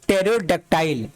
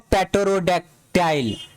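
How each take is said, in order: First: The word begins with no p sound. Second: The word begins with a p sound. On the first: The speaker calls it right. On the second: The speaker calls it wrong.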